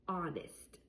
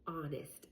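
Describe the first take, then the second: No difference in how they are said.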